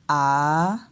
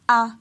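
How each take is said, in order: First: The pitch falls and then rises. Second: The pitch stays level at mid height. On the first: "on descend et après on monte" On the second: "le ton ponctuel moyen"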